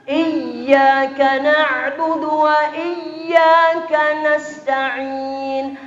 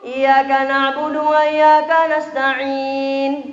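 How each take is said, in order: First: The y sound in iyyaka is doubled. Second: The y sound in iyyaka is single. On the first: Only God is worshipped and asked for help. The speaker calls it right. "harus dibaca bertasydid" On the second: The sun is worshipped and asked for help. The speaker calls it wrong. "dibaca lurus"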